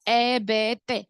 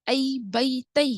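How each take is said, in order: First: The letter names use a plain 'e' vowel. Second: The letter names use an 'ai' gliding vowel. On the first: This is the habitual Urdu-influenced reading. The speaker calls it wrong. "लेकिन हम पढ़ते क्या है" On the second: This is the true Arabic way of reading. The speaker calls it right. "असल में वो पढ़ने का क्या है तरीका"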